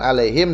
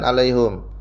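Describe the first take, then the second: First: The last syllable has an i vowel. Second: The last syllable has a u vowel. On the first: "Hanya di kasrah" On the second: "di domah"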